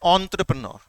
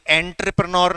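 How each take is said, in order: First: It starts with 'on' and ends in 'nur'. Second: It starts with 'en' and ends in 'nyor'. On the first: The speaker calls it right. "थोड़ा सा आपको तुतलाना पड़ता है इसका सही pronunciation करने के लिए" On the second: The speaker calls it wrong. "ये एंटरप्रेन्योर नहीं है"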